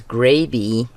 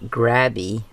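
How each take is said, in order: First: The first vowel is a long A sound. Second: The first vowel is a short A sound. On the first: The speaker calls it right. "So that makes the A long, a long sound" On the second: The speaker calls it wrong. "not Grabby"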